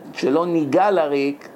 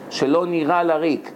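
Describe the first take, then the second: First: The g is a hard, stopped sound. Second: The g is soft and throaty, without a stop. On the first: We should not touch in vain. The speaker calls it wrong. "אתה משבש את המילה" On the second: We should not toil in vain. The speaker calls it right. "אם אין דגש בגימל, אז צריכים לבטא את זה... כמו העיראקים"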